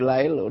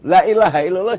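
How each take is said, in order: First: The phrase is shortened to a few syllables. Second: The phrase is said in full Arabic form.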